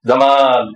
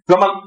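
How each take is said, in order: First: The second vowel is long and drawn out. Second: The second vowel is short, not drawn out. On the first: The word means beauty. The speaker calls it right. "টান দিয়ে কইতে হইতো" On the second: The word means camel. The speaker calls it wrong. "টান যদি না দেন"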